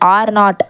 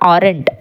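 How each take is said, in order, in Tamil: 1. இது இரண்டு தனித்தனி முழு வார்த்தைகளாக சொல்லப்படுகிறது. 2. இது ஒரு சுருக்கமான சுருங்கிய வார்த்தையாக சொல்லப்படுகிறது.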